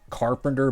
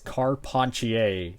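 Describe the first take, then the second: First: It sounds like the English word carpenter. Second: It does not sound like the word carpenter. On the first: The speaker calls it wrong. "kind of looks like it's pronounced Carpenter" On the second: The speaker calls it right. "but it's Carpentier"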